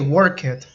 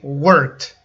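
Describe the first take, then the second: First: The ending is pronounced as an extra 'id' syllable. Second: The ending is pronounced as a single 't' sound. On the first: The speaker calls it wrong. "You don't say work it" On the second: The speaker calls it right. "It has like a T sound at the end"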